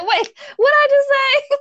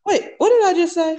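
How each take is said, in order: First: Much higher, louder mock-baffled replay; mocking confused. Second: High, startled self-correction; real surprise at own words; confused surprise. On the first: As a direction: parrot her slip, amused and exaggerated. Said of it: "You were like". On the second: Real, not acted. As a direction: catch your own slip, baffled. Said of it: "that was so funny".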